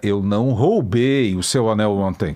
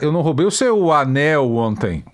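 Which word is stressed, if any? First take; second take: roubei; anel. First: The stress falls on the word roubei. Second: The stress falls on the word anel. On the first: It was lent, not stolen. "Você me emprestou" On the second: Something else was stolen. "Eu roubei a bota"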